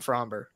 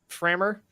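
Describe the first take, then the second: First: The name is said with a clear B sound. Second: The name is said without any B sound. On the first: "I've been calling him Fromber" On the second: "do you pronounce the B in Fromber?"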